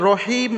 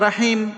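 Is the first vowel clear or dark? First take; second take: dark; clear. First: The first vowel is dark, not an open aa. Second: The first vowel is a clear, open aa. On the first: The speaker calls it right. "রহিম হবে।" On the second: The speaker calls it wrong. "র জবর রা নয়"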